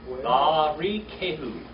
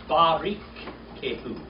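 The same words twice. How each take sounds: The two takes are said the same way.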